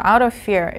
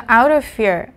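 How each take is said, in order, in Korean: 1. 'out'의 t는 부드러운 탄설음입니다. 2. 'out'의 t는 분명한 t입니다. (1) "우리는 미국식 발음에 좀 더 익숙하죠. 이렇게 리을로 뭉개는 소리" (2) "영국식 발음이죠. 영국 출신이라 지금"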